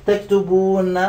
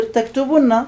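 First: تكتبون with a drawn-out ū before nn; long vowel form. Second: تكتبن with short u into double n; shortened vowel form. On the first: Teacher shows the original form, long ū in تكتبون. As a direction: hold the ū in "تكتبون", taktubūūnna. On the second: Teacher shows what it becomes, short u in تكتبن. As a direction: say "تكتبن" as taktubunna, higher. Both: Shown as a demonstration. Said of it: "تصير".

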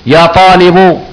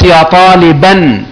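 First: "طالب" ending on a clear -u; damma ending. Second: Very slow "طالبا", ending on -an; tanween fatha. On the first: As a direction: pronounce "طالب" as taalibu. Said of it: "يعني لو قلت لواحد فيكم". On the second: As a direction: pronounce "طالبا" as taa-lii-bannn. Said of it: "يبقى ما قصدتش إيه؟". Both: Shown as a demonstration.

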